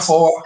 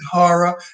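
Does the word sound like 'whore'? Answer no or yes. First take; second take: yes; no. First: The word sounds like 'whore'. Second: The word does not sound like 'whore'. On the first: The speaker calls it wrong. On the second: The speaker calls it right. "You pronounce it horror"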